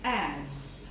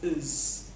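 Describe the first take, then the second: First: The word is said fully with its clear vowel. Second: The word is reduced, with its vowel weakened.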